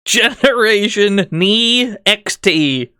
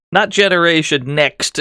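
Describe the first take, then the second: First: "Nee X T" drawn out letter by letter, slowly; spelled-out pronunciation. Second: Said in the usual way. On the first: Shown as a demonstration. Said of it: "Not Generation Next, as you've written". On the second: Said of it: "as you've written".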